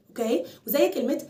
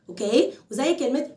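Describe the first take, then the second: No difference in how they are said.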